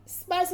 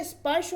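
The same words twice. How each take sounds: First: स्पर्श as spars, ending in s; wrong pronunciation. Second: Said in the usual way. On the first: Shown as a demonstration. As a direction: finish स्पर्श on s instead of sh. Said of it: "स्पर्श नहीं होता". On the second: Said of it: "स्पर्श होता है".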